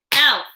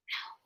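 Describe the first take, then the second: First: Said in the usual way. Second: Whisper. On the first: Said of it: "Stump with me". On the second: Shown as a demonstration. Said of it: "Whisper with me".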